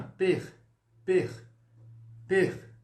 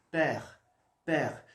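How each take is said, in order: First: "Per" with a closed é, as in acute-accent French. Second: "Per" with a wide-open French è. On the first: Teacher showing students the acute accent, "Per" with closed é. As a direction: say "Per" loudly and separately, with a tight closed e. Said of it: "Então eu ficaria assim". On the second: Teacher showing the grave accent to students, "Per" with a very open è. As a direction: open the e right up in "Per", each one separate. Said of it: "um som bem aberto". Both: Shown as a demonstration.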